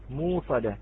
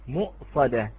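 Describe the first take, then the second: First: A long u vowel replaces the glottal stop. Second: A glottal stop is heard before the s sound. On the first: "فهي تبدل كذلك" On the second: "كلمة مؤصدة"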